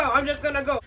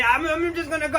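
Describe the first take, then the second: First: Sheepish exit repeated. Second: High, hurried retreat; sheepish exit. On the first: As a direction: trail off as you back away. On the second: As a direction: slip away awkwardly. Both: Acted. Collector trying to leave.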